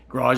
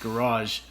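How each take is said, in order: First: It is said with a plain English pronunciation. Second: It is said with a French-style pronunciation.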